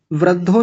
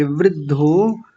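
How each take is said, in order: First: वृद्धो as vrad-dho; wrong first vowel. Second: वृद्धो slowly as vrid-dho; ri vowel. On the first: Teacher showing what not to say, वृद्धो as vrad-dho. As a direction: put an a after vr in वृद्धो. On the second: Teacher correcting the class, वृद्धो as vrid-dho. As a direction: sound ri in वृद्धो, long final o. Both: Shown as a demonstration. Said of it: "वृद्धो नहीं कहेंगे".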